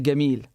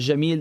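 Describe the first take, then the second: First: The word begins with a hard G sound. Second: The word begins with a J sound. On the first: This is the Egyptian dialect form. "they would say Gamil" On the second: This is the usual non-Egyptian form. "instead of saying uh, Jamil"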